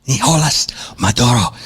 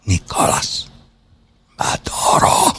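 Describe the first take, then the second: First: "Nicolas Maduro" said flat and American, no Spanish sounds; plain English "Nicolas Maduro"; flat American pronunciation. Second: "Nicolas Maduro" breathed softly in Spanish, ni-ko-LAS ma-DU-ro; whispered Spanish pronunciation. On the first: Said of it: "speaking completely accent-free American dialect". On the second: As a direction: hush it in mock-refined Spanish, "Nicolas Maduro". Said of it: "I know how to pronounce it in Spanish". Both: Shown as a demonstration.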